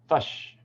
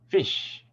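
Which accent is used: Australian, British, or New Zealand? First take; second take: New Zealand; Australian. First: The vowel sounds like a central 'uh'. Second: The vowel sounds like a tense 'ee'. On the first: "in New Zealand English, it often becomes a ah sound" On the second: "in Australian English, it often becomes a E sound"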